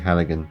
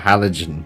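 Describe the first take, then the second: First: It is said as hal-li-gan. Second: It is said like the word halogen. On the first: The speaker calls it right. "I think it's actually Halligan" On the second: The speaker calls it wrong. "I've been calling it a Halogen tool"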